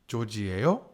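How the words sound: The pitch rises at the end. It asks who the listener is. "Are you George?"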